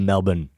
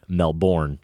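First: The name is pronounced the local Australian way. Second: The name is pronounced the usual American way. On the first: The speaker calls it right. "it's just so much more fun to say Melbourne" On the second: The speaker calls it wrong. "not Melbourne like most Americans would"

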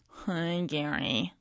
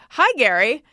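First: The greeting sounds flat and low in energy. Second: The greeting sounds bright and energetic. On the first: The writer seems cold or annoyed. The speaker calls it wrong. "it's like this" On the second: The writer is friendly and warm. The speaker calls it right. "if I don't say"

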